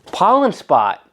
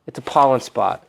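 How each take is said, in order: First: Much higher, slow squeaky "Pollen spot"; high drawn-out cartoon voice of the paint. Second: Said in the usual way.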